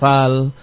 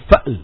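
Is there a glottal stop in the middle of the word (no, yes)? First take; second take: no; yes. First: The word has no glottal stop inside. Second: The word has a glottal stop inside. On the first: The speaker calls it wrong. "jangan dibaca fal, bukan fal" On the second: The speaker calls it right. "dibaca dengan mahmuz, berhamzah"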